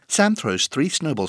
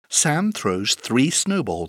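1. La phrase est dite très vite. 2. La phrase est dite rapidement. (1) "Encore plus vite!" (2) "plus vite!"

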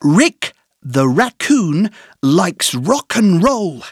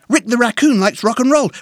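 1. Elle est dite lentement, avec des pauses entre les groupes de mots. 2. Elle est dite très vite, comme une seule phrase rapide.

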